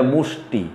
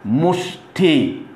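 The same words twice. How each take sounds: First: মুষ্টি with a crisp ট; short clean মুষ্টি; correct pronunciation. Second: মুষ্টি stretched very slowly; wrong pronunciation. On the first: Teacher correcting students, crisp মুষ্টি. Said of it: "আসলে মুষ্টি না, এটা মুষ্টি". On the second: Teacher showing the common wrong মুষ্টি, very slow. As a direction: draw out মুষ্টি syllable by syllable. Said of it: "আসলে মুষ্টি না". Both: Shown as a demonstration.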